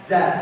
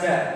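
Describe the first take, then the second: First: It starts with a z sound. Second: It starts with a j sound. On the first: The speaker calls it right. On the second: The speaker calls it wrong.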